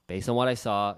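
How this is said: The voice sounds hesitant and apologetic. The offer is expected to be rejected. The speaker calls it wrong. "the Canadian way of like, I know you're probably not going to accept this"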